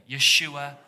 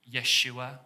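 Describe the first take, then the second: First: Yeshua called out loudly with the room; loud call-and-response Yeshua; congregation call. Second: Yeshua said as YESH-oo-ah; Hebrew name. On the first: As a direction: lead the crowd in saying Yeshua. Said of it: "Everybody say that together". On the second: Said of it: "In the Hebrew, it would have been". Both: Shown as a demonstration.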